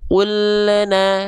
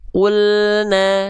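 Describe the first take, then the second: First: The L bounces with an added vowel after it. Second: The L is held smoothly with no added vowel. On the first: The speaker calls it wrong. "jangan sampai dibaca kullana" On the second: The speaker calls it right. "tapi kulna"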